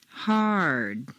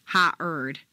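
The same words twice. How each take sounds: First: Hard gliding smoothly from ha into er; smooth double stair step. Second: Ha-erd split into two choppy sounds; staccato. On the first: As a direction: let Hard flow from vowel to er. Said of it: "follow them smoothly over the double stair step". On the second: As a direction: say ha-erd as two separate beats. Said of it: "Don't make them two staccato sounds". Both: Shown as a demonstration.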